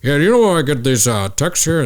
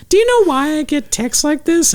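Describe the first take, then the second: First: Quick, put-on dad voice; dad impression. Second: Very high falsetto mother; mom impression. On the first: Dad handing his phone to his son, quick mock dad voice. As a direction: imitate your dad asking, hurried and higher. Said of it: "my dad hands like". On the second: Mom asking her son about texts, high-pitched mock mom voice. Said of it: "She was like".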